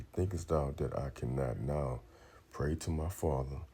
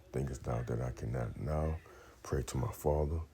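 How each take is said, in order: Both takes have the same delivery.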